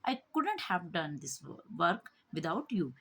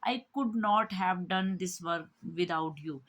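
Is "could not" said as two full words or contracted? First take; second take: contracted; full. First: "Could not" is squeezed into one word, couldn't. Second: "Could not" is said as two full words. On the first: The speaker calls it right. "हम ऐसे बोलेंगे I कुडंट ... short form में बोलेंगे" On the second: The speaker calls it wrong. "Speaking में बोलेंगे तो हम ऐसे नहीं बोलेंगे"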